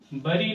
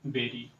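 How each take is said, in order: First: The first vowel sounds like 'uh' in 'hurry'. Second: The first vowel sounds like 'eh' in 'berry'. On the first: The speaker calls it wrong. "बरी पढ़ते हैं, जो कि बिल्कुल incorrect है" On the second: The speaker calls it right. "बेरी पढ़ेंगे, बरी नहीं बेरी"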